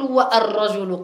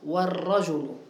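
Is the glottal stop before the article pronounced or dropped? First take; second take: pronounced; dropped. First: A glottal stop is pronounced after the wa. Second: The wa runs straight into the l sound. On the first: The speaker calls it wrong. "لا تقول" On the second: The speaker calls it right. "لم تأتي إلا بالواو واللام بعدها"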